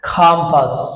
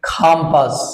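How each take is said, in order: The two takes are said the same way.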